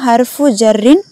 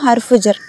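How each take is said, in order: First: The last word ends with a full -in ending. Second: The last word is cut short without ending. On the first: This is the full formal form. "Full ஃபார்மில் சொல்லணும்னா" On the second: This is the everyday spoken form. "நம்ம பேச்சு வழக்கில் அதை எப்படி சொல்லுவோம்?"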